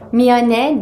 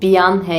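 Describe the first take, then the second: First: The word begins with an m sound. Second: The word begins with a b sound. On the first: The speaker calls it right. "Korece'deki M harfiyle yazılıyor" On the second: The speaker calls it wrong. "yani B ile kullanılıyormuş gibi gelebiliyor"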